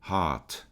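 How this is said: The R is dropped and the vowel lengthened. "no inglês britânico a gente oculta um pouco esse R"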